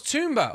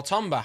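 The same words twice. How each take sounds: First: "Tomba" with an oo in the first syllable; alternative pronunciation. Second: "Tomba" with a short o in the first syllable; alternative pronunciation. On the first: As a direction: say "Tomba" as TOOM-buh. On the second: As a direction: say "Tomba" as TOM-buh. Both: Shown as a demonstration. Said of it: "however you would like to say it".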